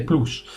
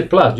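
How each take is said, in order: First: Plus with a long oo vowel, like ploos; wrong plus. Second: Plus with a short uh vowel, like plʌs; correct plus. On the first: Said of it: "you don't say plus". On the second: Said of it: "you say plus". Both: Shown as a demonstration.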